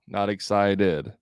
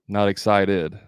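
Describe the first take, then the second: First: The pitch drops off at the end. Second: The same.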